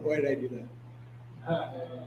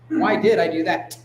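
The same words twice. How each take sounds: First: It sounds light and laughing. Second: It sounds firm, with a hard final T. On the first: The speaker is laughing the mistake off. The speaker calls it wrong. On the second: The speaker insists on finding an answer. The speaker calls it right.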